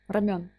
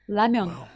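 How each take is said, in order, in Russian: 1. Слово начинается со звука R. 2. Слово начинается со звука L.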